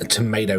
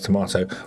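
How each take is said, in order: First: It is said with an American accent. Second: It is said with a British accent. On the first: "tomato is American" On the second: "so it's tomato"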